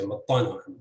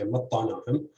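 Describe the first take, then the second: First: "mattanahum" with stress on its second syllable, TA. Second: "mattanahum" with stress on its first syllable, MAT. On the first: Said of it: "optionally stress the second syllable". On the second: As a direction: hit the opening syllable of "mattanahum". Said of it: "has stress on the first syllable". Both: Shown as a demonstration.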